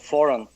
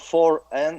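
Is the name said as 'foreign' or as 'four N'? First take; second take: foreign; four N. First: It is said as one word, foreign. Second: It is said as the number and a letter. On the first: The speaker calls it right. "So foreign is the right pronunciation of the company name" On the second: The speaker calls it wrong. "it's not number four N"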